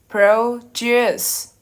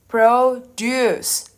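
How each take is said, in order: First: The stress is on the second syllable. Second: The stress is on the second syllable.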